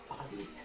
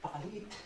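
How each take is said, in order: First: "Pakaliit" dropped very low and quiet; a low, quiet echo of "Pakaliit"; very low, soft. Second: Said in the usual way. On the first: Shown as a demonstration. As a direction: sink "Pakaliit" down to a low hush. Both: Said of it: "ito lang pala yung problema natin".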